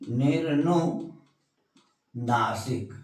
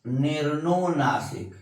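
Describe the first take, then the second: First: निर्नुनासिक stretched out slowly and softly; slow dictation. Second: Said in the usual way. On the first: Shown as a demonstration. Teacher repeating निर्नुनासिक slowly for the class to write down. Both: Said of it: "क्या है?".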